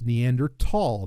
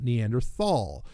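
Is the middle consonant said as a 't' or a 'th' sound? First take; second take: t; th. First: The middle consonant is a plain 't' sound. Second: The middle consonant is a 'th' sound. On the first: The speaker calls it right. "it's Neanderthal" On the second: The speaker calls it wrong. "not Neanderthal"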